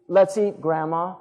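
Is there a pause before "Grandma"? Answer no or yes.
yes. There is a pause before Grandma.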